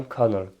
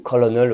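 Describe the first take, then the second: First: "colonel" as two-syllable KER-nel; correct English pronunciation. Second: "colonel" sounded out in English as co-lo-nel; mistaken English pronunciation. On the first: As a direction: say "colonel" just like English "kernel". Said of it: "c'est bien colonel". (« colonel » bien prononcé, comme « kernel » en anglais) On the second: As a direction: say "colonel" as spelt, three syllables with English-style vowels. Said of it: "ça ne se prononce pas du tout". (« colonel » mal prononcé, en trois syllabes à l'anglaise) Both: Shown as a demonstration.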